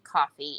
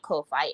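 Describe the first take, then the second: First: It is said just like the everyday word coffee. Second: It is said as two separate syllables, unlike coffee. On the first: The speaker calls it right. "It's actually coffee" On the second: The speaker calls it wrong. "but it is not Ko-Fi"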